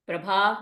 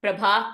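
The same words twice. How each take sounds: First: Mild, unthreatening parent; gentler parent. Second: Put-on firm, brisk call to the child; no-nonsense summons; stern parent. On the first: Acted. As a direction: call the name tentatively, lifting at the end. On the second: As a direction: call the name as a warning. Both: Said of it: "Now the alternate situation".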